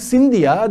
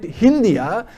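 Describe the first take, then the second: First: The word begins with an s sound. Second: The word begins with an h sound. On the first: The original name from the river. "instead of calling Sindhia" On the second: The name as the West Asians said it. "they called it Hindia"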